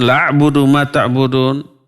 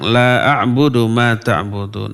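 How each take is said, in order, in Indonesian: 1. Vokal pertama dibaca pendek. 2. Vokal pertama dibaca panjang. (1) "Lalu dibaca pendek" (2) "La-nya panjang"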